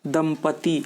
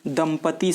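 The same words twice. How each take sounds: No difference in how they are said.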